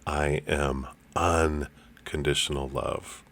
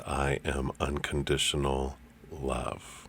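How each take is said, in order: First: The word "unconditional" is stressed. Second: The word "love" is stressed.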